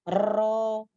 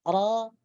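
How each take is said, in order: First: The r has a full, strong rolling trill. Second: The r has a faint, light vibration. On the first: The speaker calls it wrong. "atau bukan ro ... Ini adalah getaran yang sempurna" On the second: The speaker calls it right. "getaran yang samar"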